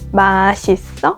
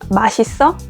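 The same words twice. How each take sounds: First: It is said slowly, syllable by syllable. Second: It is said fast as one word.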